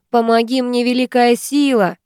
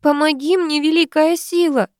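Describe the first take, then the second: First: Firm dictated words to repeat; commanding. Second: Much higher, desperate cry. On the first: Ingrid dictating the prayer to her friend, commanding. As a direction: lay down the exact words firmly. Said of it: "велит та". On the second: Woman in labour crying to the great power, desperate. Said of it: "кричит роженица". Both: Acted.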